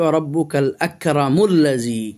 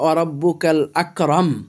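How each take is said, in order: First: Akram takes a final u and links to alladhi. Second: The phrase stops on akram with no final vowel. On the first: The reciter joins the verse to the next words. "আর যদি না থেমে যাই" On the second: The reciter pauses at the end of the verse. "আর যদি থেমে যাই"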